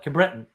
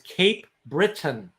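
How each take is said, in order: First: It is run together as one word, local accent. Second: It is said clearly as two separate words. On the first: This is how the locals say the name. "But they call it Cabreton" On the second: This is the standard form of the name. "what they meant was Cape Breton"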